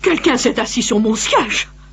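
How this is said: It is said in a medium, middle voice.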